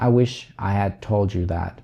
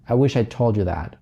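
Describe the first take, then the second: First: The word 'had' is pronounced fully and clearly. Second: The word 'had' is reduced and barely audible.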